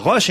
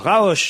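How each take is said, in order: First: The vowel is a single plain o sound. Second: The vowel is a drawn-out a-o sound. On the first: The speaker calls it right. "on dit bien Roche" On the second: The speaker calls it wrong. "et non pas Raoche"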